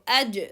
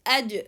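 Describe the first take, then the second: The two takes are said the same way.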